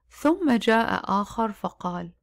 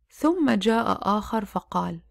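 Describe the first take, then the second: No difference in how they are said.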